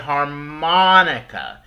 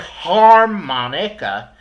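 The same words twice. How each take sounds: First: The stress falls on the second syllable. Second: The stress falls on a syllable other than the second. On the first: The speaker calls it right. "We say harmonica. We put the stress and the emphasis on the mon part" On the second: The speaker calls it wrong. "We don't say harmonica"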